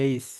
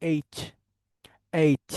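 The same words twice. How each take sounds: First: এইচ with a soft "s"-like ending; common local H. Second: এইচ with a crisp final "ch"; corrected English H. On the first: Teacher shows how many say H, local pronunciation. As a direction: end এইচ loosely, like "eis". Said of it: "আমরা এটাকে অনেকে এইচ বলি". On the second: Teacher models H with ch at the end, corrected pronunciation. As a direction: finish এইচ on a distinct "ch" sound. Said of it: "লাস্টে একটু চ উচ্চারণ করতে হবে". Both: Shown as a demonstration.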